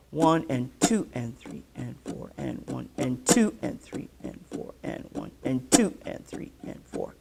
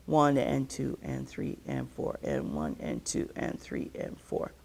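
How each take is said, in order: First: "two" and "four" leaned on in a swinging count; swing shuffle count. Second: Even, steady counting; straight shuffle count. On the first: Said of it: "So a swing shuffle is gonna go". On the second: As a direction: count every beat evenly, falling away at the end. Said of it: "what we would call just a straight shuffle". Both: Shown as a demonstration.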